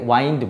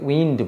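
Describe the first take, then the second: First: The vowel is a long 'eye' sound. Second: The vowel is a short 'ih' sound. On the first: It is a different word, not meaning air. The speaker calls it wrong. "এটাকে ওয়াইন্ড বলে না" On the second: It means moving air. The speaker calls it right. "এটাকে উইন্ড বলে"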